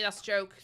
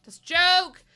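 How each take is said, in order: First: Said in the usual way. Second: "That's a joke" shouted much louder and higher. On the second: Real, not acted. Streamer yelling to chat that it's only a joke, loud. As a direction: yell "That's a joke" to make clear it's a joke.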